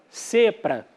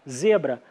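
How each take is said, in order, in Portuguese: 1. As consoantes são surdas, como s e p. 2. As consoantes são sonoras, como z e b. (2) "Em vez de falar zebra"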